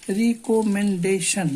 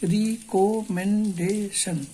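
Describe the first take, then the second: First: Said in the usual way. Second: recommendation said very slowly, syllable by syllable; broken into syllables. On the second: Shown as a demonstration. Teacher breaking the word for students into strokes, very slow. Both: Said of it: "इसको भी तोड़ के देख लीजिए".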